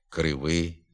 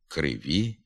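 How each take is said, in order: First: The word ends in a short 'ih' vowel. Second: The word ends in a clear 'ee' vowel. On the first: This is a northern dialect form. The speaker calls it wrong. "вимовляється «и» замість «і» в закінченні" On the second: This is the literary standard form. The speaker calls it right. "За літературними нормами тут треба вимовляти звук «і»"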